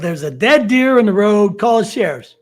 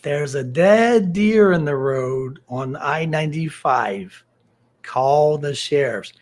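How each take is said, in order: First: It is said at normal speed. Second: It is said slowly and deliberately.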